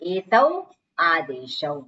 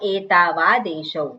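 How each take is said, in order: First: The two words are said separately with a break. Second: The two words are run together as one.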